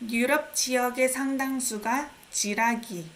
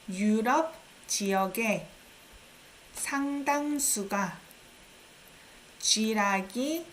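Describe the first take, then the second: First: It is read at a normal speed. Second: It is read slowly.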